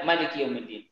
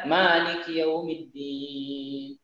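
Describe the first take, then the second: First: The first vowel of Maliki is short. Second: The first vowel of Maliki is long. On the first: This is a less common but valid reading. "Dia baca" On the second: This is the usual reading. "pada umumnya orang membaca"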